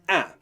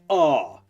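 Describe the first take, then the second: First: The vowel is said in a northern English style. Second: The vowel is said in a southern English style. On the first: The speaker calls it wrong. "not the northern ah" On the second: The speaker calls it right. "pronouncing the ah sound in words like these in the southern style"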